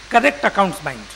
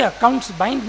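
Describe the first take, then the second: First: "correct" stressed up front, phrase falling to a close. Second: Said in the usual way. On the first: Shown as a demonstration. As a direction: underline "correct" to qualify the phrase. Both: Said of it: "we mean".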